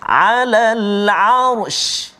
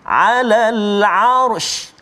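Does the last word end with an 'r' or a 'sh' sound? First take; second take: sh sound; sh sound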